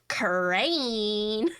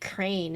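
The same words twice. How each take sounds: First: The word is said with strong, exaggerated emphasis. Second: The word is said in a plain, neutral way. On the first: "she just emphasizes the word" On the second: "she could say like crane"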